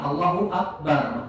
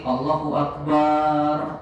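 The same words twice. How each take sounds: First: The last syllable of Akbar is kept short. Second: The last syllable of Akbar is drawn out long. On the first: God is Greatest. The speaker calls it right. "barnya pendek tuh" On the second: The meaning changes away from 'God is Greatest'. The speaker calls it wrong. "yang pendek dipanjangin"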